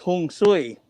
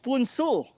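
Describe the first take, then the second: First: It begins with h and sounds like 'hong sui'. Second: It begins with p and sounds like 'poon-soo'. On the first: "in Hokkien, it's" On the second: "Korea, it's"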